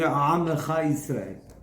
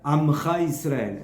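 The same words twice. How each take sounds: First: The first word starts with a guttural sound. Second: The first word starts with a plain vowel. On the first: The speaker calls it right. "en lugar de decir" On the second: The speaker calls it wrong.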